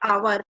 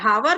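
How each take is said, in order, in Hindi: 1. यह शब्द सीधे स्वर से शुरू होता है। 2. यह शब्द h ध्वनि से शुरू होता है। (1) "एच क्या है, साइलेंट है" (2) "हावर नहीं बोलते"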